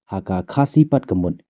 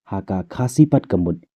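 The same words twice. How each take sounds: Both takes have the same delivery.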